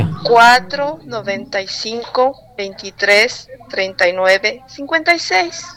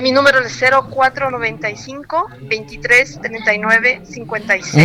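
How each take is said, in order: First: The number is said more slowly. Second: The number is said at normal speed.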